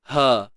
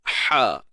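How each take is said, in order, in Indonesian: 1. Bunyi h-nya biasa dan terbuka, tidak sempit di tenggorokan. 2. Bunyi h-nya ditekan sempit di tengah kerongkong. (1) "Kalau tak sempit, dia jadi ha" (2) "Tapi bila sempit"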